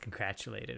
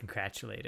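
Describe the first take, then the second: First: It is said with a T sound after 'congratu'. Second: The same.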